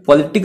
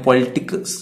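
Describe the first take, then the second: First: "पॉलिटिक" ending on a k, without the s; final s dropped. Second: Said in the usual way. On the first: Shown as a demonstration. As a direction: say "पॉलिटिक" with no s after the k. ("पॉलिटिक", आख़िर में स की आवाज़ के बिना) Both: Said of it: "पॉलिटिक नहीं बोलते".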